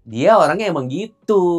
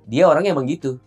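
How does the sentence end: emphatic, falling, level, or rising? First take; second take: emphatic; falling. First: The sentence ends forceful and emphatic. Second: The voice falls to a final stop at the end. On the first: It is an exclamation. "Kalau tanda seru?" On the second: The statement is complete. "yang titik dulu ya"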